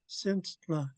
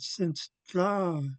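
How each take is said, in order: First: The word is said plainly, without extra force. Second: The word is said forcefully, as if pulled out. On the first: The speaker calls it wrong. "I learned it as since" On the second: The speaker calls it right. "he said it's like you're you're trying to pull it pull it out"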